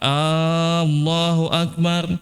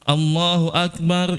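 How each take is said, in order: First: The first a is drawn out. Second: No vowel is drawn out. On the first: Is Allah the greatest? The speaker calls it wrong. "kalau A banyak panjang" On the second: Allah is the greatest. The speaker calls it right.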